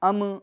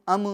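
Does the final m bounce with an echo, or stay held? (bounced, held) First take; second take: bounced; bounced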